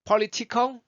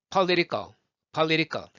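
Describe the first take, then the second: First: Political high with crisp Ts; aspirated "po-li-ti-cal"; full T sound. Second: Political as "pa-li-ri-kal", falling; American flap in political; flapped T. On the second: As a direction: tap the T of political like an R. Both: Shown as a demonstration. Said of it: "복식호흡 영어라고".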